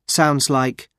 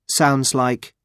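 Both takes have the same delivery.

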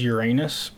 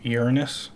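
First: The ending sounds like the word 'anus'. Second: The ending sounds like 'nus', not 'anus'. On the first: This is the technically correct form. "Technically, it is Uranus" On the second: This form avoids saying a rude word on TV. "all the newscasters just agreed to say Uranus. So that they wouldn't have to say anus on TV"

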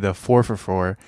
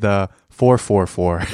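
First: The middle word is reduced to a weak 'fer'. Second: The middle word is said as a full 'four'. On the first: The speaker calls it wrong. "You're not supposed to say the 4 for $4" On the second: The speaker calls it right. "You're supposed to say the 4-4-4"

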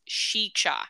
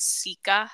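First: It starts with sh and has ch inside. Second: It starts with s and has k inside. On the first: "it says it's pronounced Shicha" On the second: "on Google, it says Sika Hollow"

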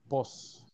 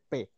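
First: It is the Mexican form, pos. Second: It is the Peruvian form, pe.

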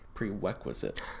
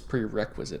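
First: The first r sound comes out like a w. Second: The r sounds are pronounced as clear r sounds. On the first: The speaker calls it wrong. "not prerequisite, which is what I said on Sunday" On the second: The speaker calls it right. "And it's prerequisite"

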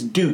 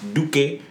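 First: It sounds like the English word duke. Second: It does not sound like the word duke. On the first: The speaker calls it wrong. "They'll say it's Duke" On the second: The speaker calls it right. "It's not Duke. It's Duque"

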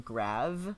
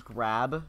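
First: The word ends with a V sound. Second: The word ends with a B sound. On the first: "sometimes we say grav. With a V" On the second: "instead of saying grab"

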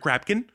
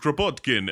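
First: The name is said with only two syllables. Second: The name is said with all three syllables. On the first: The speaker has no idea how to say the foreign name. The speaker calls it wrong. "You're like missing an entire syllable" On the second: The name is pronounced the way its bearers say it. The speaker calls it right. "they clearly say it like every time"

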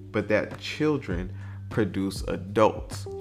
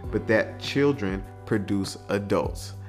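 No difference in how they are said.

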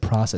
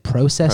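First: It is said without a Canadian accent. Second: It is said with a Canadian accent. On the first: "They don't say process" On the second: "They process"

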